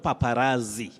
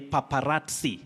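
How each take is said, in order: First: The double z sounds like plain z. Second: The double z sounds like ts. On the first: The speaker calls it wrong. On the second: The speaker calls it right. "this Z takes the sounding ts"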